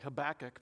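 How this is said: The name is said in a Southern American way. "I'm going to say Habakkuk because I'm from the South"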